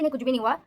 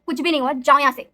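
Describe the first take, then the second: First: Said in the usual way. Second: Loud, snapping at them to get out; sudden harsh tone. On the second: Retold or imitated. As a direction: order them out of the room, loud and sharp. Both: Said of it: "अचानक से उसकी tone बहुत बदल जाती है".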